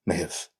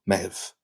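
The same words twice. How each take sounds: Both takes have the same delivery.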